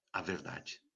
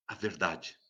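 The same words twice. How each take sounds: First: Near whisper. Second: Much softer, low answer to his own question. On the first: Preacher to listeners, repeating in a near whisper. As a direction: repeat it barely voiced, lower and much softer. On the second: Preacher to listeners, answering softly. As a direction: let the answer drop quietly. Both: Acted.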